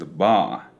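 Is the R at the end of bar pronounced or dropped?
dropped. The R is dropped, with a longer vowel.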